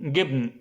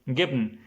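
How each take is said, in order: No difference in how they are said.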